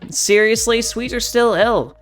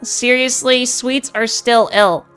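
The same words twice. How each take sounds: First: The voice sounds androgynous, between masculine and feminine. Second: The voice is as bright as possible. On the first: "I'm going to try an androgynous tone for you" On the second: "speaking in the highest brightness that I can"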